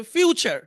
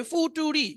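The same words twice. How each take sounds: First: "ফিউচার" with a y-glide and a ch sound; correct pronunciation. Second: Higher-pitched "ফুটুরি", read letter by letter from the spelling; spelling-based mispronunciation. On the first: Teacher giving the real English sound, fyoo-cher for "ফিউচার". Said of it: "কিন্তু উচ্চারণ হবে". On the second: Teacher showing what the spelling would give, foo-too-ree for "ফুটুরি". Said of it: "তো সব মিলে কি হবে?". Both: Shown as a demonstration.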